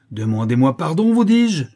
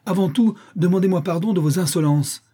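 First: Loud shriek climbing into falsetto; falsetto rage. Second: High, tense angry demand; through clenched teeth. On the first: Countess repeats her demand in excess of anger, shrieking falsetto. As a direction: insist furiously, voice shooting up high. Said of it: "détonnant en fausset dans l'excès de sa colère". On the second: Aunt demands an apology from niece, through clenched teeth. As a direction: demand it with barely held-in fury. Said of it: "les dents serrées". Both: A narrator's reading.

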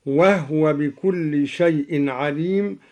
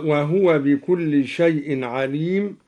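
First: "وهو" said "wahwa", no vowel on the h; silent-vowel ha. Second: Said in the usual way. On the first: Shown as a demonstration. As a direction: close "وهو" straight from h to w. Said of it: "بإسكان الهاء من هو". (إسكان الهاء في "وهو")

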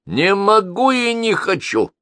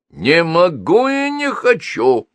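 First: High, slow, sneering refusal; grating, disagreeable old crank; nasty voice. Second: A lightly voiced grating creak, slow; creaky sneering refusal, winding down; creaking at low revs. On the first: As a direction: make the voice as unpleasant as you can. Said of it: "Голос был не просто неприятным". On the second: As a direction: scrape it out like a slowing power saw. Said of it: "проскрипела электропила уже на малых оборотах". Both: A narrator's reading.

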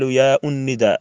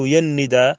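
First: Long aa in "يا", then an added u before "الندى"; "يا الندى" split in two with an inserted u; faulty separated pronunciation. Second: "يا الندى" linked as one word, no glottal stop; correct joined pronunciation. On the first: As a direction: say "يا الندى" as yaa un-nida. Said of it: "ذاك من اللحن". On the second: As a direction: say "يا الندى" run together as yan-nida. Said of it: "ويقال". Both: Shown as a demonstration.

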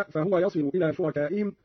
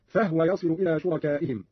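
First: Said in the usual way. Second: فهو in two syllables, fah-wa; vowelless ha. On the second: Shown as a demonstration. Teacher shows the same rule, فهو pronounced fahwa. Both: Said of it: "قرأ قالون بإسكان الهاء".

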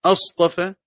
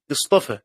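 First: أصطفى with a firm opening glottal stop and open a, astafa; interrogative hamza. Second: اصطفى begun with a light i, istafa; connecting hamza. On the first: Teacher reading the question form to students, hamza sounded firmly. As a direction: start أصطفى on a clear cut-off hamza, astafa. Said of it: "بهمزة الاستفهام". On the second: Teacher showing the connecting-hamza reading to students, light i. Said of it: "هذه همزة وصل". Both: Shown as a demonstration.

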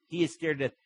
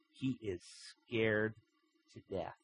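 First: Preacher hammering the point; emphatic repeat. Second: Softer, dropping away to almost nothing; hushed, ominous storytelling; hushed dread. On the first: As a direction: drive the repeat home. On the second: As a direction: let the fear sink in quietly. Narrator dwells on fear. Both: A narrator's reading.

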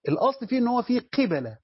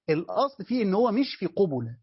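First: قبلة said as qebela, kasra under q and fatha on b, pitched higher; the right reading qibala. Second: قبلة said as qubula, with u after q and b; not qubula. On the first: Teacher to students, stressing the correct reading qebela. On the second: Teacher to students, giving the reading ruled out. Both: Shown as a demonstration. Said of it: "ليس في قبلة".

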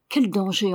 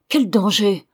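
First: Said in the usual way. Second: Louder, fervent outburst; sudden exalted cry. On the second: Acted. Old father cries out fearing for Tremle's grandson, exalted. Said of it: "s'écria le vieillard avec une soudaine exaltation".

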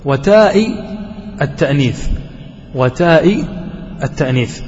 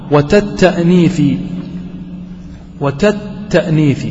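First: وتاء التأنيث with a long taa and a clear hamza; full hamza form. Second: وتتأنيث slow, with the hamza dropped, taa run straight into the next syllable. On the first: Teacher gives his students the correct original form, hamza clearly sounded. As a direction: pronounce وتاء التأنيث fully, glottal stop intact. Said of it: "الأصل أن يقول". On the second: Teacher reads the poem's clipped form to his class, slow, hamza dropped. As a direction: say وتتأنيث slowly, eliding the hamza. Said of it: "حذف الهمزة". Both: Shown as a demonstration.

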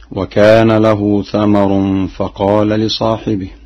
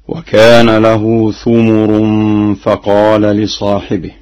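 First: Said in the usual way. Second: ثمر recited "thumur", u on tha and mim; slow recitation, saying ثمر as thumur; damma on both letters. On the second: Shown as a demonstration. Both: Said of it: "بضم الثاء والميم معا هكذا".

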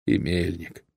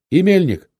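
First: Said in the usual way. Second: High, loud asking; raised, urgent question; loud alarmed question. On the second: A narrator's reading. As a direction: call out the name in alarm. Rider asks after another comrade.

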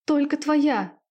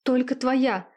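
First: Loud high scream of ecstasy. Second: Raised cry of passion; cried out. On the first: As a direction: scream it out at the peak, much higher. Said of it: "кричала девушка". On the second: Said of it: "выкрикнула Виктория". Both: A narrator's reading.

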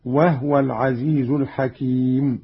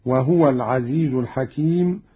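First: وهو as wahwa; lightened silent ha. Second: وهو as wahuwa; voweled ha. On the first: Teacher shows Qalun's reading, وهو as wahwa. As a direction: say وهو with no vowel on ha. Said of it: "بإسكان الهاء تخفيفا هكذا". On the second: Teacher quotes the verse before the variant, وهو as wahuwa. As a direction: say وهو with damma on the ha. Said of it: "بإسكان الهاء تخفيفا". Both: Shown as a demonstration.

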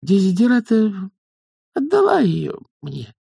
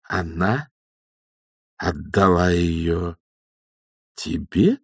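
First: High, halting confession; timid young witch. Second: Incredulous checking back. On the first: Acted. Young witch confesses to her elders, timidly. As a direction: admit it in a small high voice, pausing. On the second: A narrator's reading. Old witch queries the young one's claim, slowly incredulous. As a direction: space it out with heavy pauses. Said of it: "переспросила матушка Буревей".

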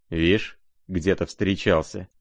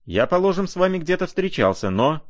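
First: Spiteful sneer. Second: Much higher, haughtily strained voice; raised voice. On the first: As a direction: throw the words back without raising the voice. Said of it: "злобно осклабился Рогожин". (негромкая злая передразнивающая реплика) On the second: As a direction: pitch it right up in affronted protest. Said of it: "возвысил голос Ганя". (высокий возмущённый голос) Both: A narrator's reading.

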